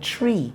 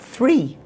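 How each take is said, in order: First: It starts with a hard t sound. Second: It starts with a soft th sound. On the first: "He said tree" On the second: "not three"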